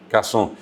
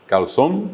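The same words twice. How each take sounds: First: Cazón with no L, ending in nasal O; sin L, nasal. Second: Calzón with L and final N sounded; con L y N. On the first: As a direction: drop the consonants, end cazón on a nasal vowel. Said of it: "se le pone la tilde nasal". (cazón sin L, con o nasal final) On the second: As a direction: pronounce both L and N in calzón. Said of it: "allí está la L". (calzón con la L y la N claras) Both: Shown as a demonstration.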